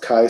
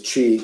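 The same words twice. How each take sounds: First: It starts with a k sound, rhyming with kite. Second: It starts with a ch sound, as in tai chi. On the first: "should be pronounced chi squared" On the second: "to me is chi, because you know, like Tai Chi"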